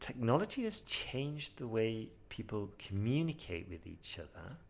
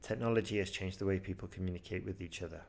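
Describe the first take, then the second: First: Changed and communicate get soft extra emphasis. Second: The sentence is spoken flat, without emphasis. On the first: The speaker calls it right. "High scoring answer. ... I'm trying there to softly emphasize changed and communicate" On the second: The speaker calls it wrong. "Poor answer. ... Flat"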